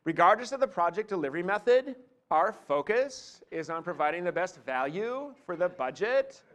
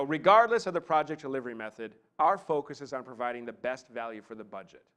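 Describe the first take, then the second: First: Rising lilt on FOCUS, VALUE and BUDGET, as if asking; question speak. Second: Just state the whole thought, settling down on BUDGET; assured statement tune, no question in it; confident downward inflection. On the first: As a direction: turn each phrase into a question with upward inflection at its end. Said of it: "question speak". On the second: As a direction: state it firmly, falling at the end on BUDGET. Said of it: "vocal inflection which says confidence". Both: Shown as a demonstration.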